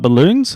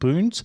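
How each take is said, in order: First: The middle 'l' syllable is pronounced. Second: The middle 'l' syllable is dropped. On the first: This is the standard adult form. "not balloons" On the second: This is how a small child says it. "the way he names balloons at the moment"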